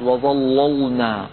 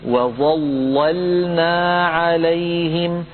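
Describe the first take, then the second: First: وظللنا with both لام sounds heavy; وظللنا wrongly heavy on the sukoon لام; wrong example. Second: Slow chanted وظللنا, heavy first لام, light second لام; وظللنا, first لام full, sukoon لام light; correct recitation. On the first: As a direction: thicken the second لام of وظللنا as well. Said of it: "ولا يقولن أحد". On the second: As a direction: recite وظللنا with only the doubled لام thick. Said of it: "أعيد فأقول". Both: Shown as a demonstration.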